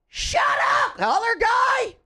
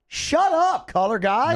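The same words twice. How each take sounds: First: It is said in a higher-pitched voice. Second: It is said in a lower-pitched voice.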